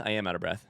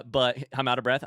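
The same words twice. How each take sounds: First: Out of breath. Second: Said in the usual way. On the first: Real, not acted. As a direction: lower and softer, winded after the hype.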